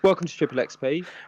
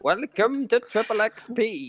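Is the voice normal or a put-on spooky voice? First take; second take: normal; spooky. First: It is said in his normal voice. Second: It is said in a put-on spooky voice.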